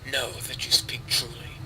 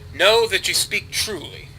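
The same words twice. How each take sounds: First: It is said in a put-on character voice. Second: It is said in his normal voice.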